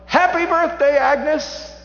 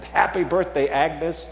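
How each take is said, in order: First: Much higher, much louder group scream. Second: Said in the usual way. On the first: Retold or imitated. Crowd of women surprises Agnes with a loud, high scream. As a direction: belt it like a crowd springing a surprise. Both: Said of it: "they all screamed out".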